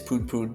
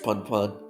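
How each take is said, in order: First: The name has the long vowel of 'moon'. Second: The name has the short vowel of 'fun'. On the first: The speaker calls it right. "It's Poon Poon" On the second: The speaker calls it wrong. "I mispronounced the name"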